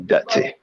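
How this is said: It is said in a Jamaican accent. "In Jamaica they say dirty"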